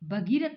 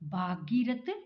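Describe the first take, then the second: First: The first vowel is a short 'a'. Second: The first vowel is a long 'aa'. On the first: The speaker calls it right. "भगीरथ होता है" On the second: The speaker calls it wrong. "भागीरथ शब्द नहीं होता है"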